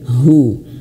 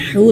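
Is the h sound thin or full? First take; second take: full; thin. First: The h sound is full and enlarged. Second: The h sound is thin and small. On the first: The speaker calls it right. "Haknya diperbesar. ... tapi hu" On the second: The speaker calls it wrong. "jangan hu"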